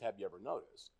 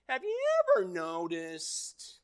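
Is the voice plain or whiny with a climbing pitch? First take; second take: plain; whiny. First: It is said in a plain, even voice. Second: It is said whiny, with the pitch climbing up. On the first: The speaker calls it wrong. "isn't just" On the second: The speaker calls it right. "You got to have that little whine, that little climb up the ladder"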